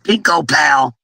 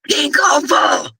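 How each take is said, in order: First: The name is split after the 'o' sound. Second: The name is split after the 'k' sound. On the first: The speaker calls it wrong. "Mama G had me calling you Pinko Pal" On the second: The speaker calls it right. "So I'm going to say it right"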